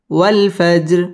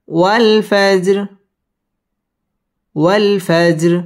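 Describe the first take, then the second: First: Said in the usual way. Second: Slow, drawn-out chanted recitation of the word; Quran recitation. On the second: Shown as a demonstration. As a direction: stretch والفجر slowly like tilawat, rounding the lips on و. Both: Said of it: "wow ঠোঁট গোল করে উচ্চারণ করতে হবে".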